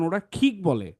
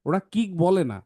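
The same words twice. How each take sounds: First: কিক with a breathy aspirated খ; aspirated kick. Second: কিক with a plain unaspirated ক; unaspirated kick. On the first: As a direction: say কিক as খিক with a puff of air. (উচ্চারিত খিক, হাওয়া ছেড়ে) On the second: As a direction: say কিক as flat Bengali কিক, no puff. (হাওয়া ছাড়া সাধারণ কিক) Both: Shown as a demonstration.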